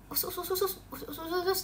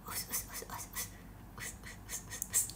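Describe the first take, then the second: First: It is spoken in a normal voice. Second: It is said in a soft whisper.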